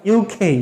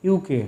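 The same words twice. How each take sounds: First: ইউকে with a breathy খ-like k; correct aspirated pronunciation. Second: ইউকে with a plain unaspirated k; wrong pronunciation. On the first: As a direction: puff air on the k of ইউকে. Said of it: "but the sound is like". (খ-এর মতো হাওয়া দিয়ে ইউকে) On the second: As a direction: say ইউকে the usual Bangla way, plain k. (সাধারণ ক দিয়ে ইউকে) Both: Shown as a demonstration.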